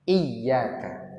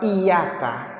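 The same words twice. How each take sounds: First: The y sound is held long and doubled. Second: The y sound is short and single. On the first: It means 'you'. The speaker calls it right. "Bacaan yang benar itu pakai tasydid" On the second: It means 'sun'. The speaker calls it wrong. "enggak pakai tasydid"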